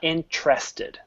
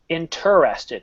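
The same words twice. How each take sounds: First: Some sounds in the word are dropped or merged. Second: Every written sound in the word is pronounced. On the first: The speaker calls it wrong. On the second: The speaker calls it right. "let's take a look at how the word is written"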